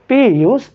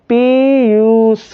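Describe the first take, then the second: First: The word is said at a brisk, normal pace. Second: The word is stretched out slowly and drawn out. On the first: This is how anyone normally says it. "तीन second ले लिए" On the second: Time runs differently for this speaker. "बोलने का तरीका different है। सुनो कैसे"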